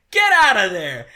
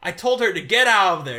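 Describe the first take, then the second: First: "Get out of there!" yelled loud and high, laughing; shouting. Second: Said in the usual way. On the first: Retold or imitated. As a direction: bark "Get out of there!" like a frantic Doc. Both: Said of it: "and it cuts to him going".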